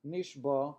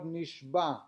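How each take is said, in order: First: Nishba ending in a plain open vowel, no ayin; missing ayin. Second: Nishba said slowly with the ayin at the end; careful ayin. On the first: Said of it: "so that it should not s-, sound like". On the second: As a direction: sound the final ayin in nishba. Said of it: "One should carefully pronounce the ayin". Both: Shown as a demonstration.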